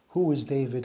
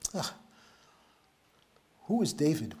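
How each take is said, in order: First: It sounds like a genuinely puzzled question. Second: It sounds scornful and dismissive, with a sigh.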